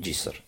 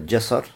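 First: The first vowel is an 'i' sound. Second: The first vowel is an 'a' sound. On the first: "можно сказать с кесрой" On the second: "можно сказать джасар с фатхой"

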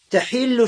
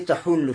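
First: The second vowel is an 'i' sound. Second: The second vowel is a 'u' sound. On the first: Intercession will be permitted. "Но тахиллю, значит, будет дозволено заступничество" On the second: The time of intercession will arrive. "Тахуллю, то есть наступит время шафа'а"

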